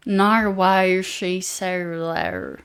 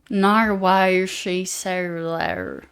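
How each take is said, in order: First: It is spoken in a Southern American accent. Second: The same.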